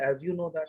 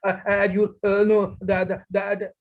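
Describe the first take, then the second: First: The phrase is spoken calmly in one smooth flow. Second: The phrase is spoken in a halting, broken way. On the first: The speaker calls it right. "आराम से बोलिए" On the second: The speaker calls it wrong. "ये तो कोई बोलने का तरीका नहीं हुआ।"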